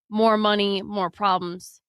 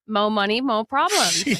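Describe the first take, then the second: First: The word is said with a full final r. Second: The word is said without a final r. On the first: "when you said more" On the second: "I can't believe you said it like that"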